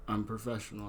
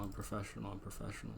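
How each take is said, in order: First: Said in the usual way. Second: Muttered softer and softer to himself; calm yourself down, fading to a murmur; repeating it under the breath like a mantra; quiet self-reassurance. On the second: Shown as a demonstration. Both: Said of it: "I swear".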